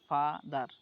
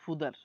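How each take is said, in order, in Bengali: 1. প্রথম স্বরধ্বনিটি একটি খোলা 'ah' ধ্বনি। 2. প্রথম স্বরধ্বনিটি একটি গোলাকার 'oo' ধ্বনি। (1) "এফ এ যে ফা হয়" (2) "এখন সে পড়তেছে ফুদার"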